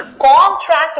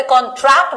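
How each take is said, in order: First: contract with the stress on CON, the noun; CON-tract, punching the start of "contract"; first-syllable stress. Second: contract with the stress on TRACT, the verb; con-TRACT, hitting the end of "contract"; second-syllable stress. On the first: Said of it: "first syllable पे stress आएगा". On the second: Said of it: "second syllable पे stress आया". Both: Shown as a demonstration.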